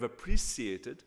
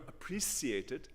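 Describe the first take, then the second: First: It is said in the speaker's normal accent. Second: It is said in an imitated foreign accent.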